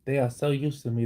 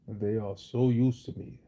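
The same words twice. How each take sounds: First: The voice is pitched at a higher level. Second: The voice is pitched at a deeper level.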